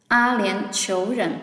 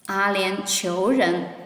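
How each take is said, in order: First: Said in the usual way. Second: Slowed down for the class; slow teacher demo; slow model reading. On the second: Shown as a demonstration. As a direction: stretch each syllable out. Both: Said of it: "Please try to read with me".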